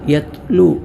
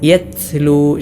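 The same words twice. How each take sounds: First: The t is released with no air at all. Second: The t is released with a heavy burst of air. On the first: "തീരെ കാറ്റില്ലാതെ താ ഇല്ലാത്തതുപോലെ" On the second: "ശക്തമായ കാറ്റോടുകൂടെ ഉച്ചരിക്കാറുണ്ട്. അത് പിഴവാണ്"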